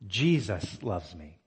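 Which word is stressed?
Jesus. The word Jesus is stressed. It is amazing who it is that loves. "it is amazing that Jesus loves me"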